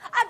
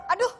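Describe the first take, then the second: First: It sounds like a sudden cry of surprise. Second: It sounds like a mild cry of pain.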